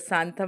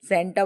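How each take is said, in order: First: The first vowel is a long 'aa' sound. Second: The first vowel is a short 'e' sound. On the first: The speaker calls it wrong. "बुआ सांता सांता बोल रही हो। मैं उसको गलत pronounces pronunciation कर रही थी" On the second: The speaker calls it right. "सेंटा बोल रहे थे"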